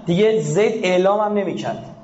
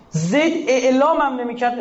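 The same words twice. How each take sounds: First: Said in the usual way. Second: اعلام hit higher, the whole phrase slowed; stress on اعلام. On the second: Shown as a demonstration. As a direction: lean hard on اعلام and draw the line out. (تأکید روی «اعلام»، آهسته و بلندتر) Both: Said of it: "repeats the phrase stressing اعلام".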